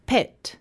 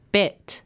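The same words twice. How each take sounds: First: "pet" with a puffed P; isolated "pet", no vibration on the P; unvoiced P demo. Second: "bet" with B, no puff; voiced B demo. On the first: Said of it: "you won't feel any vibration". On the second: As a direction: start "bet" with the throat vibrating. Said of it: "You should feel a vibration". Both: Shown as a demonstration.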